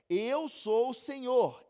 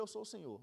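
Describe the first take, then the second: First: "eu sou o Senhor" slow and loud, hitting "eu"; stress on eu. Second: Said in the usual way. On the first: Acted. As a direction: proclaim "eu sou o Senhor" slowly, landing on "eu". Reads verse, slow emphasis. (ênfase lenta e forte em "eu")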